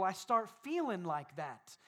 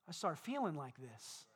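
First: Said in the usual way. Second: Low, soft, slumped voice; downcast demo. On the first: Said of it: "with my shoulders back and a smile". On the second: Shown as a demonstration. Preacher showing how slumped posture sounds, downcast. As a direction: let the words sag as if weighed down. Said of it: "If I walk around like this".

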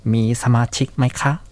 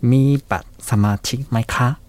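First: ミーサマチマイカ with バ dropped, slow, rising at the end; shortened form. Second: ミーバサマチマイカ with every syllable, slow, rising at the end; full form. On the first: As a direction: say ミーサマチマイカ clipped short, question rise. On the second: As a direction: say ミーバサマチマイカ in full, slowly, question rise. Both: Shown as a demonstration. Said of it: "少し省略しまして".

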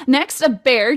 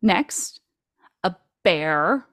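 First: Said in the usual way. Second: Pause, then drop "a bear" in as if in quotes; sarcastic air quotes. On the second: Shown as a demonstration. Host doubting a computer-made bear, sarcastic air quotes. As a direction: set "a bear" apart, mock-serious. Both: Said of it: "sarcastic air quotes 'cause it's a computer bear".

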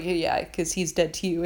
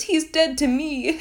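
First: Said in the usual way. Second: High, slow, hammed-up declaration; mock melodrama. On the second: Son disowns his father to crewmates, mock melodramatic. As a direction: imitate an overdramatic disowning, pitched way up. Character's dramatic line mocked.

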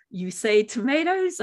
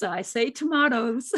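First: "tomatoes" said toe-MAY-toes; "tomatoes" as toe-MAY-toes, the American way; tomatoes with long A. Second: "tomatoes" said toe-MAH-toes; "tomatoes" as toe-MAH-toes, the Australian way; tomatoes with broad A. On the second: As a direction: say "tomatoes" with the British ah sound. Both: Retold or imitated. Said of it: "All that's going through my head is".

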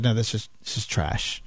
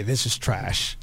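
First: Low, quiet flat dismissal; dismissive quote. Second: Deadpan dismissal. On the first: Studio head rejecting a pitch, low curt dismissal. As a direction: brush it off as trash, lower and softer. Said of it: "Kathleen Kennedy said". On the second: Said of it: "I'm sure she said it exactly that way". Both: Retold or imitated.

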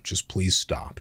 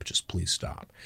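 First: Said in the usual way. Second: Whispered, much softer, fading out; whispered plea. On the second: Retold or imitated. Dad begging mom to stop, whispered and fading. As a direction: breathe it, almost giving up. Dad pleading during parents' fight.

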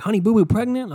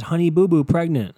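First: High, disbelieving question; pitched way up, astonished echo; incredulous reaction. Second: Loud mock headline read. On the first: Retold or imitated. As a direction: repeat the headline back in mock disbelief. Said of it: "I'm like". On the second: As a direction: announce it as a found online headline. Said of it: "where it says".

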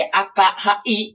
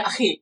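First: Letter-by-letter spelling of A K H I, not read as a word; spelled out letter by letter. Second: Akhi said as one word, kh as a throaty Arabic fricative; read as Arabic. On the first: Explaining the word to his friend, spelling A K H I slowly letter by letter. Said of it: "Ejanya sih". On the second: Correcting his friend, reading Akhi with an Arabic kh. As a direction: say Akhi with a rasping kh, not Aki. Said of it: "Cuman dibacanya". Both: Shown as a demonstration.

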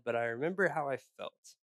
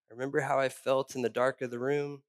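First: Remember leaned on, falling tune; weight on remember; stress on remember. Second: How lifted and stressed; emphasis moved to how. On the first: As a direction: land on "remember" then let it fall. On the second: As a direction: push the word "how". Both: Shown as a demonstration.

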